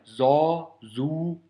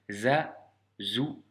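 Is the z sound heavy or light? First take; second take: heavy; light. First: The z sound is heavy and thick. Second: The z sound is light and thin. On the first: The speaker calls it wrong. "Ne surtout pas prononcer de cette manière" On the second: The speaker calls it right. "vraiment de manière légère"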